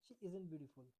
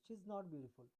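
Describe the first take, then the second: First: 'Not' is contracted into 'isn't' without extra stress. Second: 'Not' is a separate word said with extra stress. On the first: It is a plain, neutral statement. "ये हो गया हम लोगों का normal तरीका" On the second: The denial is made stronger. "नॉट लगा कर बोला मैंने कि बात को ना थोड़ा सा जोर देकर बोला गया"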